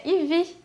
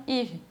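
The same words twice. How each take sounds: First: IVY com acento na última sílaba; pronúncia à francesa. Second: YVES com a primeira sílaba forte e o fim fraco; tônica na primeira sílaba. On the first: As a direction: diga IVY à francesa, tônica no fim. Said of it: "à la française". (IVY, pronúncia francesa com a última sílaba forte) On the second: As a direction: diga YVES sem acentuar o final. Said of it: "a sílaba tônica vai ser sempre a última". (YVES, acento no começo da palavra) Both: Shown as a demonstration.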